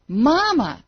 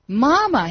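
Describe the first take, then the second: First: Higher, louder, more strained call; desperate scream. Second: Higher, louder desperate call; scream. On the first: Falling boy crying again for mother, strained. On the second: Falling boy calling his absent mother, screamed. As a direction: cry for mother into darkness. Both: A narrator's reading. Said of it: "he screamed".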